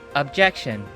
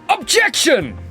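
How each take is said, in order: First: It is said flatly with little energy. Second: It is shouted loudly with strong energy.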